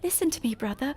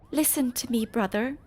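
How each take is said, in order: First: It is said in a put-on Fran voice. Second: It is said in the speaker's normal voice.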